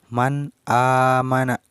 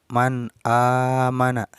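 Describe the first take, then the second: The two takes are said the same way.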